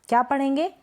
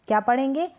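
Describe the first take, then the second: The two takes are said the same way.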